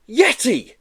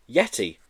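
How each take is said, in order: First: High, loud excited yell. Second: Said in the usual way. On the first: Acted. Joe recognizing the creature, loud high yell. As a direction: shout the discovery. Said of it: "he yelled". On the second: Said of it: "repeated quietly to self".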